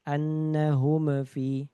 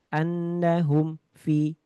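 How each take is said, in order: First: The m bounces with a small echo. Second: The sound breaks off after the m. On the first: "memantul tadi nggak boleh juga" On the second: "Terputus. ... ada putus"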